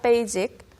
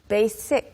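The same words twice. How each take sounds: First: The middle consonant is a buzzing z sound. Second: The middle consonant is a hissing s sound. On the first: The speaker calls it wrong. "Not basic" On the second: The speaker calls it right. "S with an S"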